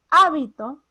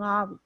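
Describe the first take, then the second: First: "hábito" set apart, HÁ punched loudly; stress on first syllable. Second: Said in the usual way. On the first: Shown as a demonstration. Teacher saying one thing is this word, "hábito" loudly stressed on HÁ. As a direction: punch HÁ in "hábito" after a short pause. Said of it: "Una cosa es un". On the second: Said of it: "y otra cosa es un".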